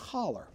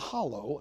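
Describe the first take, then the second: First: The word ends with an 'er' sound. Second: The word ends with an 'oh' vowel sound.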